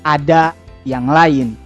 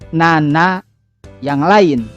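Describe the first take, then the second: First: The first word is articulated clearly. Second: The first word is slurred and unclear. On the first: The speaker calls it right. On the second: The speaker calls it wrong. "Sebagai contoh"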